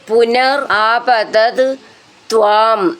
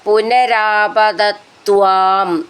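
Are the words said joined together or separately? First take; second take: separate; joined. First: The words are said as separate words. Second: The words run together as one word.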